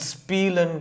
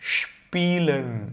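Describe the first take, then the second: First: It starts with an s sound. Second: It starts with a sh sound. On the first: The speaker calls it wrong. "இது ஸ்பீலன் கிடையாது" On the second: The speaker calls it right. "ஷ் இந்த sound use பண்ணுறோம்"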